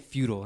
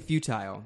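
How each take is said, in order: First: The word sounds like 'feudal'. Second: The second syllable sounds like 'tile'. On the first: The speaker calls it wrong. "They say futile and it annoys the fuck out of me" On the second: The speaker calls it right. "they don't say futile"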